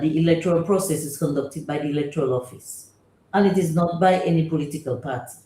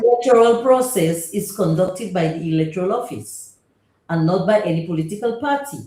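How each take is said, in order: First: It is said at normal volume. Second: It is said louder.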